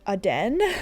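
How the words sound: The word is said with a French pronunciation. "more commonly around the Europe area, especially French"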